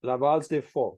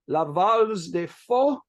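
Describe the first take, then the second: First: "La valse des faux" repeated in a firmer French, falling at the end; corrected French. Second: "La valse des faux" said slowly in French, rising on "faux"; French phrase. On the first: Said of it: "it's faux, F A U X". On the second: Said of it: "please forgive my mediocre French accent". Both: Shown as a demonstration.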